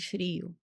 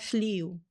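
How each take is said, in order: First: The second consonant is an R sound. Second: The second consonant is an L sound. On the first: The speaker calls it right. "em vez de frio" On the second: The speaker calls it wrong. "troca seria flio"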